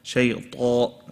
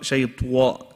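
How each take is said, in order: First: The t is said with no lip rounding. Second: The t is followed by a w-like lip rounding. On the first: The speaker calls it right. "there's no W" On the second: The speaker calls it wrong. "Not shaytwa"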